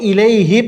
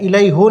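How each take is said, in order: First: The pronoun ends with an i vowel. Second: The pronoun ends with a u vowel. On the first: The speaker calls it right. "इसी वजह से अब हमने इलई ही पढ़ा है" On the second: The speaker calls it wrong. "इलई हो नहीं पढ़ा"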